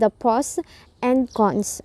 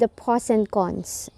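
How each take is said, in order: First: Each word is said separately, not linked. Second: Word endings blend smoothly into following words. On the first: The speaker calls it wrong. "instead of" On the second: The speaker calls it right. "blend the, the ending sounds to the beginning sounds"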